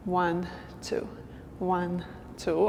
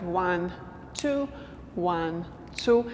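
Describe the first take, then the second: First: Soft count in quicker pairs; double-time count. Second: Evenly spaced slow counting with gaps between numbers. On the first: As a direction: count one-two twice as fast, softly. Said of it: "go twice as fast". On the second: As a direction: count slowly, one word per beat. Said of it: "if we do it slow". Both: Shown as a demonstration.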